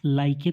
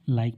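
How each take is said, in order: First: The word ends with an extra 'e' vowel sound. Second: The word ends on the 'k' sound, no vowel. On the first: The speaker calls it wrong. "लाइके तो नहीं पढ़ते" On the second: The speaker calls it right. "लाइक पढ़ते हैं"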